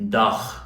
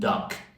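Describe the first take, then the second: First: The final sound is a ch sound. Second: The final sound is a k sound. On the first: "we tend to replace that final G with a ch" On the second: "replace it with a K"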